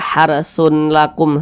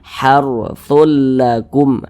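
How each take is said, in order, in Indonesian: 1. Kata pertama berakhir dengan bunyi n yang terpisah. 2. Kata pertama berakhir menyatu dengan bunyi l. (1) "jangan dibaca harsun lakum, sun sun, jangan" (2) "tapi dimasukkan ke huruf lam"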